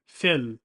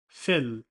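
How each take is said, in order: The two takes are said the same way.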